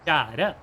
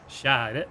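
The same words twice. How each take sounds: First: The pitch goes up on the word. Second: The pitch goes down on the word. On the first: This is how it is said in the capital. "In in the capital, they would say kjære. ... it goes up in the capital" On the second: This is how it is said in the speaker's home region. "Where I come from, they would say kjære. ... it goes down where I'm from"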